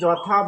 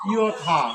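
First: The word begins with a 'j' sound. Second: The word begins with a 'y' sound. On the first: The speaker calls it wrong. "এইটা সঠিক উচ্চারণ নয়" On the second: The speaker calls it right. "এবার উচ্চারণ হবে ইয়থা"

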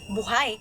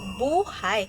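First: The stress is on the second syllable. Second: The stress is on the first syllable. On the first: It means the person is still breathing. "ang binibigyang diin dito ay ang pantig na hay" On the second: It refers to a person's fate or life. "kapag binibigyan natin ng diin ang salitang bu ay nagiging buhay"

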